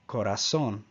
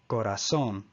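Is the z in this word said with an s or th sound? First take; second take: s; s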